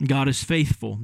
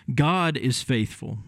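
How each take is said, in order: First: Said in the usual way. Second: "God is faithful" slowed, God weighted; slow emphasis. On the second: Shown as a demonstration. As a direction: lean on God and take each word slowly. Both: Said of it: "That's the key phrase in that text".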